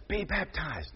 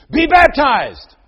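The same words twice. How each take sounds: First: Softer, hushed grandfather cue; soft prompt. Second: Put-on higher, louder, slow boy's proclamation; child preacher echo. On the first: Retold or imitated. Grandfather prompting Luke softly. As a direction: murmur it as a prompt. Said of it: "you can hear his grandfather say". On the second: Little Luke loudly repeating his grandfather's words. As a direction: proclaim it like a four-year-old preacher.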